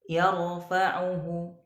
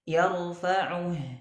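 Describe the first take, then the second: First: A faint short vowel is heard after the h. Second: The word ends cleanly on a silent final h. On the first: The speaker calls it wrong. "Tidak boleh kita bacanya yarfa'uhu" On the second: The speaker calls it right. "ini kan bacaannya seharusnya dibaca panjang nih"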